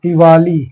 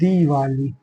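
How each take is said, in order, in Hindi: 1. पहला स्वर छोटा है। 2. पहला स्वर लंबा है। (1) "तो दिवाली में क्या गलती है" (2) "यहाँ भी छोटी की मात्रा नहीं होगी"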